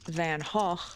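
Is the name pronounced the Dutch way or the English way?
Dutch. The name is said with Dutch pronunciation.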